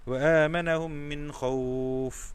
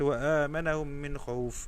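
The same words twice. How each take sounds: First: The vowel in the last word is held long. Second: The vowel in the last word is cut short. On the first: The speaker calls it right. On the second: The speaker calls it wrong.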